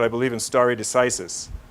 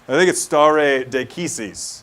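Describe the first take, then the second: First: It uses the anglicized legal-English pronunciation. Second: It uses a classical Latin-style pronunciation. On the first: The speaker calls it wrong. "that is definitely not how you pronounce stare decisis" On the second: The speaker calls it right.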